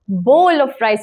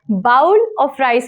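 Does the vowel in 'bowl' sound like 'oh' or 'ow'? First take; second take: oh; ow. First: The vowel in 'bowl' sounds like 'oh'. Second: The vowel in 'bowl' sounds like 'ow'. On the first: The speaker calls it right. "is correct" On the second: The speaker calls it wrong. "is wrong"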